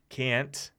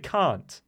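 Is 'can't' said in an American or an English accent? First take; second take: American; English. First: It is said with an American accent. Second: It is said with an English accent. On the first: "which is the American, in my mind, the way Americans say it" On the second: "That's English"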